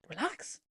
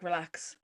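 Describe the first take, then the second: First: Soft, rising disbelieving question; affronted echo. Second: Said in the usual way. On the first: Retold or imitated. Traveller reacting to the board's message, affronted. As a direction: repeat it back, offended.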